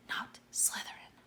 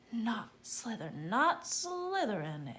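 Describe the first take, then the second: First: A silent, breathless whisper; whispered plea. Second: A slower, voiced insistent plea; pleading. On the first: Harry silently pleading with the hat, whispered. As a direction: beg it under your breath. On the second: Harry insisting to the hat, slow and voiced. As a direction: press the plea harder. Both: A narrator's reading. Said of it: "and thought".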